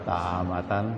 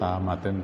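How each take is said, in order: First: The word ends with an 'an' sound. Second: The word ends with an 'in' sound. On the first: "Tapi kadang-kadang dibaca tahamatan" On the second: "tahamatin yang yang benar ya"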